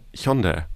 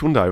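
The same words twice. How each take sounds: First: The name is said in a Korean-style way. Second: The name is said the common German way. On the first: This is how the name is really said. The speaker calls it right. "Weißt du, wie das wirklich heißt?" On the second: This is how people usually say the name. The speaker calls it wrong. "Hyundai heißt ja auch nicht Hyundai"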